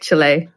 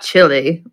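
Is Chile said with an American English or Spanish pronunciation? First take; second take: Spanish; American English. First: It is said with a Spanish-style pronunciation. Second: It is said with an Oklahoma American pronunciation. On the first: The speaker calls it right. "I am saying that right" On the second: The speaker calls it wrong. "Not Chile, like we say in Oklahoma"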